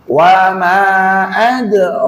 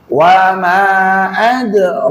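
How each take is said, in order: First: The long vowel is held for two counts. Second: The same.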